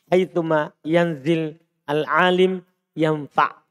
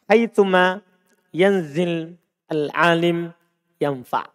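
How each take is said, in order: No difference in how they are said.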